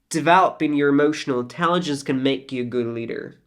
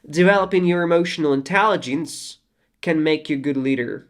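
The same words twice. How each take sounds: First: There is no pause after 'intelligence'. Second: There is a pause after 'intelligence'. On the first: The speaker calls it right. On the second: The speaker calls it wrong.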